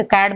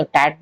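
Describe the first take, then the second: First: Said in the usual way. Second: टैट for कैट, t in place of k; कैट with a t start, टैट; changed consonant. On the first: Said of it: "कैट बोलना है". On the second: Shown as a demonstration. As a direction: say टैट, the opening k turned to t. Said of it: "changing certain consonant sound".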